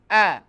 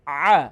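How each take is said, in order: First: آ said as a clean glottal آ from the bottom of the throat; آ with a plain catch in the throat, the hamza; hamza sound. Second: آ squeezed from the middle of the throat, tight and strained; آ pressed from mid-throat, the عین; strained throaty عین آ; ain sound. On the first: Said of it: "حمزہ کا sound آئے گا". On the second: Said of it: "عین کا sound آئے گا آ". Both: Shown as a demonstration.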